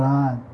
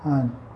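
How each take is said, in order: First: The vowel is a full open 'ah' sound. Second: The vowel is a short 'uh' sound. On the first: The speaker calls it wrong. "not Han" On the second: The speaker calls it right. "H-A-N is like H-U-N"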